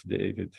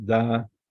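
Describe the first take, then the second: First: Said in the usual way. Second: David split into "dah... veed"; David the Hebrew way, with open "ah"; Hebrew pronunciation. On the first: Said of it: "the name of". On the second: Shown as a demonstration. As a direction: say David in two slow syllables, "dah, veed". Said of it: "So this is in Hebrew".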